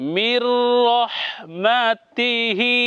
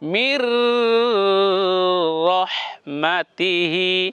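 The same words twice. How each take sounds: First: The nasal sound is passed over quickly. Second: The nasal sound is held and drawn out. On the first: The speaker calls it right. "এখানে সরাসরি দ্রুত বলবো, চালু বলবো।" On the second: The speaker calls it wrong. "এমন হবে না ... এটা ভুল হবে।"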